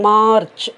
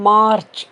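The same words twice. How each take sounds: No difference in how they are said.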